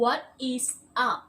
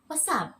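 First: It is said as three separate full words. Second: It is said quickly with what and is merged. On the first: "จริงๆแล้วมาจากคำ" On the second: "แต่ว่าเวลาเขาพูดเร็วๆใช่ไหมคะก็จะกลายเป็น"

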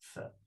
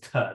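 First: The consonant is a hissing fricative, like th. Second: The consonant is a puffed stop, like t. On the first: This is a later pronunciation of the letter. The speaker calls it wrong. "they're not pronounced as th" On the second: This is how the letter was pronounced in ancient times. The speaker calls it right. "they're pronounced as ter"

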